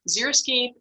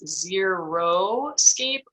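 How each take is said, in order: First: The middle sounds like 'zeri', as in xeric. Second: The middle sounds like 'zero', as in nothing. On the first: A dry but colorful landscape. The speaker calls it right. "it comes from the Greek word xeric" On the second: A landscape with nothing in it. The speaker calls it wrong. "Some people mispronounce it as xeroscape"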